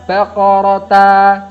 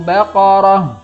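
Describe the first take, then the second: First: The word ends with a t and an a. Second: The word ends with a silent-vowel h sound. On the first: The speaker calls it wrong. "bukan baqarata, salah" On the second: The speaker calls it right. "tapi baqarah"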